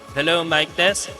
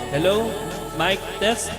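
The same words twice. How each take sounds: First: The voice has less reverb and sounds natural. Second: The voice has a slight echo. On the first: "Hinaan natin yung reverb para medyo natural" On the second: "gusto natin lagyan ng konting echo"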